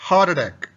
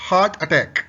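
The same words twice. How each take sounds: Both takes have the same delivery.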